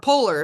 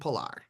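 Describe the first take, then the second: First: The word is said with an American pronunciation. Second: The word is said with a Scandinavian-style pronunciation. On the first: This is how Americans say it. "Polar if you're American" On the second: This is how the company itself says it. "but they say Fjallraven Polar"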